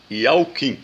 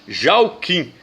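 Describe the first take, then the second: First: The name begins with a Y sound. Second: The name begins with a J sound. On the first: This is the original form of the name. The speaker calls it right. "mas é Iauquim" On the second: This is the later spelling-based form. The speaker calls it wrong. "tá falando Jauquim"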